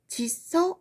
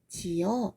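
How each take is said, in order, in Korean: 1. 's' 소리가 두 음절을 이어 줘요. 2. 두 모음이 자음 없이 만나요. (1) "짓어 라고 하지 않고" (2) "집을 지어 이렇게 얘기합니다"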